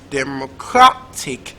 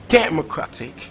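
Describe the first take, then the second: First: The stress is on the third syllable. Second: The stress is on the first syllable. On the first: "Is it third syllable" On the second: "So is it first syllable?"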